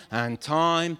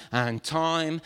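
The two takes are said the same way.

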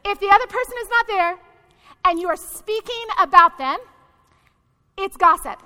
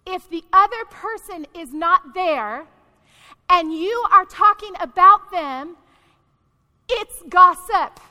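First: Quicker, higher run through "not there", pausing before "gossip"; pointed repeat. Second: Slow, deliberate clauses with long pauses, "gossip" hit loud; spelling it out. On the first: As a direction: rattle off the rule pointedly, then drop in "gossip". Repeats definition after asking. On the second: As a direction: lay it down piece by piece, landing hard on "gossip". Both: Real, not acted.

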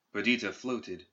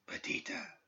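First: Said in the usual way. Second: A faint, breathy whisper of her name. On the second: A narrator's reading. Spirit calling Perdita from the dark, faint whisper. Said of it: "it whispered, so faintly".

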